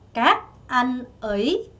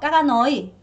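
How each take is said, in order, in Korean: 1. 각 음절마다 자기만의 뚜렷한 성조가 있어요. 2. 음절들이 성조가 평평한 채로 서로 이어져요. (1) "이렇게 가져야 됩니다" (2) "여러분 이렇게 하면 안 돼요?"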